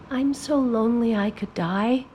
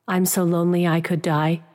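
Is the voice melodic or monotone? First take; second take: melodic; monotone. First: The pitch moves freely with strong feeling. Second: The pitch stays flat on one level. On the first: "that song part of the words" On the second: "flatten out that melody to a monotone"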